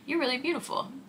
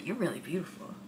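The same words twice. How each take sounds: First: It sounds surprised, as if amazed. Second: It sounds leering and suggestive. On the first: The speaker did not expect the person to be beautiful. "that sounds a little surprised" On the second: The speaker is eyeing the person up and down. "that can come off creepy"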